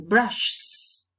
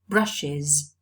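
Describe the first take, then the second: First: The plural adds only an s sound. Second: The plural adds an extra syllable. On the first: The speaker calls it wrong. "so it should be brushs" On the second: The speaker calls it right. "We pluralize it differently. We say brushes"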